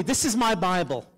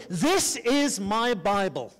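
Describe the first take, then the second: First: Said in the usual way. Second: Slow, spaced-out "This is my Bible"; leading a declaration. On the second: Shown as a demonstration. Preacher leads congregation in saying it aloud, slow declaration of "This is my Bible". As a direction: say "This is my Bible" slowly, for a crowd to repeat. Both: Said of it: "say this out loud with me".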